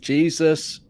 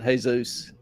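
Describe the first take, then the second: First: The name is said with American pronunciation. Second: The name is said with Mexican pronunciation. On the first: "in the U S we pronounce it" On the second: "In Mexico they pronounce it"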